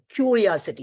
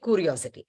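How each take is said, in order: First: A 'y' sound follows the first 'k'. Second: No 'y' sound follows the first 'k'. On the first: The speaker calls it right. "but actually there is a sound Y also" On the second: The speaker calls it wrong. "You don't say curiosity"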